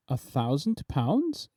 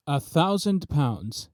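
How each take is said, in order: First: A soft, slow questioning rise on pounds; musing. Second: Said in the usual way. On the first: A narrator's reading. Artist musing over the price, soft rising question. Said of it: "inquired the artist musingly". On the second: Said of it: "said I".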